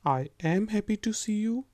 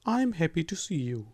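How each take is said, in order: First: 'I am' is said as two full words. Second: 'I am' is shortened into one syllable, 'I'm'. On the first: This is the form used in formal writing. "पूरे के पूरे words को use करें" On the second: This is the form used in everyday speech. "बोलने में"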